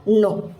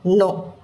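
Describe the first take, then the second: First: The word starts with an n sound. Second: The same.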